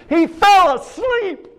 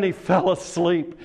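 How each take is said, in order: First: High, drawn-out preacher's shout; emphatic shout. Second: Said in the usual way. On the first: Real, not acted. Preacher drives home the martyr's death, shouting. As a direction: shout it slowly, pitched way up.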